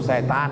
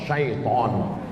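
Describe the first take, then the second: First: The first syllable has a plain 'e' vowel. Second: The first syllable has an 'ai' diphthong. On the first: This is the everyday local form. "Cuman orang kita payah bilang syaiton. Apa itu? Setan" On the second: This is the original Arabic form. "yang betul ni mana Pak Ustaz? Setan apa syaiton? Syaiton"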